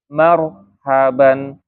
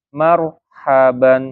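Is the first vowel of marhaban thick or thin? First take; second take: thin; thin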